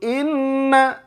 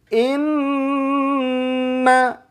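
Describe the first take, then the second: First: The nasal sound is rushed and released quickly. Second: The nasal sound is held for three beats. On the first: The speaker calls it wrong. "jangan buru-buru" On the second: The speaker calls it right. "Coba diketuk tiga ketukan"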